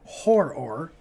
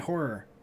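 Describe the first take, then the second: First: The word is said with careful emphasis. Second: The word is said casually, without emphasis. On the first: The speaker calls it right. "I have to say it that way" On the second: The speaker calls it wrong. "when I don't say horror, emphasizing it, it sounds like"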